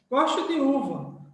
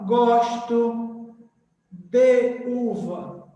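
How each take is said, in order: First: The word 'de' has a weak I vowel. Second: The word 'de' has a strong E vowel. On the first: The speaker calls it right. "A gente lê de, porque é fraco, é um som fraco" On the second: The speaker calls it wrong. "a gente não fala gosto de uva, né? O som forte"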